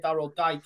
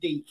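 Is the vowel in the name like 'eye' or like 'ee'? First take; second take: eye; ee. First: The name is said with an 'eye' vowel. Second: The name is said with an 'ee' vowel. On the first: The speaker calls it wrong. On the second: The speaker calls it right. "so about Deke? And I went, oh, shit"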